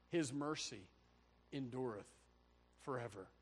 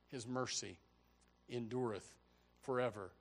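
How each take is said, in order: Both takes have the same delivery.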